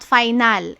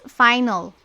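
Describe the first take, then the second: First: The second vowel is pronounced fully. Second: The second vowel is dropped or reduced. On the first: The speaker calls it wrong. "It's not final" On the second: The speaker calls it right. "it's final"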